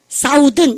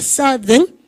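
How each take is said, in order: First: The first vowel sounds like 'ow' in south. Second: The first vowel sounds like 'uh' in sun. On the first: The speaker calls it wrong. "사우든 이러고 싶죠? 발음이 완전 바뀝니다" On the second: The speaker calls it right. "근데 어 발음이요"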